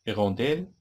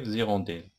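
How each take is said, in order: First: The word begins directly with a vowel sound. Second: The word begins with a linking z sound. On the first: The speaker calls it wrong. "ما كتنطقش" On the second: The speaker calls it right. "إذا غنديرو فيف زيغونديل"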